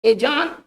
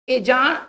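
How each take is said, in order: Both takes have the same delivery.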